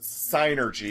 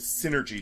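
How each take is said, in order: First: The first syllable sounds like 'sigh'. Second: The first syllable sounds like 'sin'. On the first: The speaker calls it right. "I pronounce it synergy" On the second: The speaker calls it wrong. "synergy just sounds fucking stupid"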